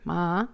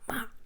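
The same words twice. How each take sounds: First: The pitch dips down and rises again. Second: The pitch drops sharply from high to low. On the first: "third tone, from up to down, and then up again" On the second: "the hard one"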